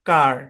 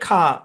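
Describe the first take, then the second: First: It is said with a clear final r sound. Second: It is said without the final r sound. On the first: "আমরা বলি কার। মানে অর্থাৎ American উচ্চারণ করতেছি" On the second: "ব্রিটিশে এর উচ্চারণ হবে খা"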